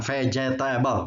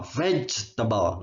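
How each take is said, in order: First: "vegetable" read as written, fe-je-ta-bel, every syllable sounded; wrong pronunciation. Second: "vegetable" said slowly as VEJ-ta-bel, three syllables; slow, careful "vegetable" with the middle e dropped; correct pronunciation. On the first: Teacher showing students the wrong way to say it, "vegetable" read as spelled. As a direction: say "vegetable" letter by letter, four full syllables, starting with an f sound. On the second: Teacher modeling the right way for students, slow three-syllable "vegetable". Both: Shown as a demonstration. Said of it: "pengucapannya gitu ya".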